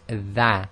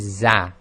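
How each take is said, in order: First: The letter starts with a soft th sound. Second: The letter starts with a buzzing z sound. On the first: The speaker calls it right. "It's tha" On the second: The speaker calls it wrong. "they say this is za, and that's completely wrong"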